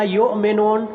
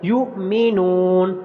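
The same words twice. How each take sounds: First: یؤمنون said as "ayomenon" with open o and e vowels; یؤمنون mispronounced with flattened vowels; wrong pronunciation. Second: یؤمنون said slowly as "yu'minun" with a clean glottal catch; slow correct یؤمنون; correct pronunciation. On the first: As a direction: model the mistaken majhul reading of یؤمنون. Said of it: "یہ اس طرح پڑھنا مجہول ہے اور یہ غلط ہے". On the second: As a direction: recite یؤمنون correctly with the hamza jolt. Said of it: "یہ غلط ہے". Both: Shown as a demonstration.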